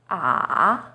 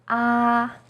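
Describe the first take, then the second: First: The pitch dips low, then rises. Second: The pitch stays high and level. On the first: "It first dips down, then rises" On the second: "First tone, 一声, is high and steady"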